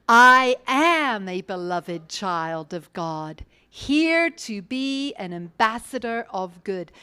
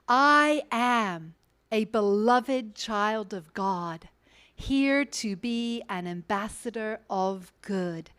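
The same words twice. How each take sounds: First: It is said with gusto and high energy. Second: It is said calmly, with ordinary energy.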